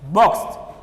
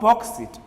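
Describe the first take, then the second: First: The ending is a plain t sound. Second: The ending adds an extra id syllable. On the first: The speaker calls it right. "We add T sound at the end" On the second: The speaker calls it wrong. "not boxed it"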